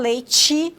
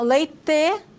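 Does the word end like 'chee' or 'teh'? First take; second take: chee; teh. First: The final syllable is said like 'chee'. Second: The final syllable is said like 'teh'. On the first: This is how it is said in northern Paraná. "como nós falamos" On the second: This is how it is said in the far south. "leite e não leite"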